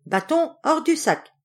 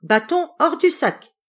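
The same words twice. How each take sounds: First: Raised, firm command to the stick; commanding call. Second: Higher, louder cry at the stick; shouted command. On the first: The young journeyman to the stick, firm raised command. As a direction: order the stick out, firm but not yet yelling. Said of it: "il disait". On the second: The turner catches the innkeeper, shouts the spell. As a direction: yell the magic words at the thief. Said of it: "il cria". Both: Acted.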